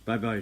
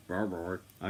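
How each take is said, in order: First: Said in the usual way. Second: Slightly lower, lightly voiced puppy; a hint of a deep-voiced dog. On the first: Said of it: "Gave him a deep voice". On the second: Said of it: "Gave him a deep voice for a nine-month-old dog".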